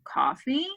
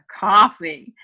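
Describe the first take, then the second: First: It is said with a questioning, rising tune. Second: It is said with a disgusted tone. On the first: The speaker is offering or asking about coffee. "we know that was a question" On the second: The speaker thinks coffee is gross. "ugh, coffee. ... coffee's gross"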